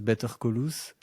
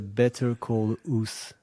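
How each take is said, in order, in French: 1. Il se prononce avec un accent français. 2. Il se prononce à l'anglaise.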